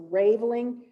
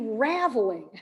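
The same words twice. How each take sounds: First: The first vowel sounds like the vowel in 'rave'. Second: The first vowel sounds like the vowel in 'ravel'. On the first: The speaker calls it wrong. "I thought that meant ra like like rave" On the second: The speaker calls it right. "Yarn unravels. It's the raveling"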